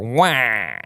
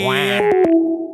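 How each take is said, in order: First: It is said at a lower pitch. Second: It is said at a higher pitch.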